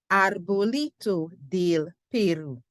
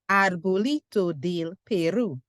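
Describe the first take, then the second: First: It is said at a slower, steady pace. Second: It is said at a quicker pace.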